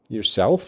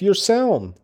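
First: The word ends with an f sound. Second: The word ends with a nasal sound. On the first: "instead of the F" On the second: "you just use an N"

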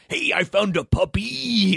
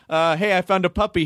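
First: The intonation jumps in odd, unexpected places. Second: The intonation is plain and ordinary. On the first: This is how the wrestler would actually read it. "He just puts the weirdest intonations on stuff" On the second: This is how the line was meant to be read. "if you wanted him to say"

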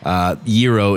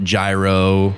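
First: The word is said with its Greek pronunciation. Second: The word is said with an anglicized pronunciation. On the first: The speaker calls it right. "Gyro is the proper pronunciation" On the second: The speaker calls it wrong. "It's not gyro"

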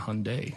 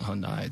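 First: The name is said to rhyme with Sunday. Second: The name is said not rhyming with Sunday. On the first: The speaker calls it right. "saying it right my entire life, saying Hyundai" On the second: The speaker calls it wrong. "not Hyundai"

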